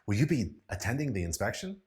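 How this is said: The voice sounds excited and lively. "use it in an excited tone of voice"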